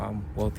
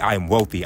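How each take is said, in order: First: It is said hesitantly and timidly. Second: It is said firmly and confidently. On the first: The speaker does not fully believe it yet. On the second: The speaker fully believes it.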